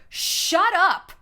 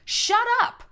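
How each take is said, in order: First: A bright, teasing shut up, louder; playful shut up. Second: Squealed shut up. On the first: Speaking to the audience, a teasing shut up said louder. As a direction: toss it off like mock disbelief. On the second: Telling the listener off, a squealed shut up going up. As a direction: Shut up jumps much higher, rising at the end. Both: Real, not acted. Mock outrage at own point.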